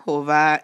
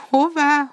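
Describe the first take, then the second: First: Said in the usual way. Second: Much higher, louder call of hová; eager question. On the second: A narrator's reading. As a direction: fling hová up high and loud. Boy greets hurrying cow. (hová magasan, hangosan felkiáltva)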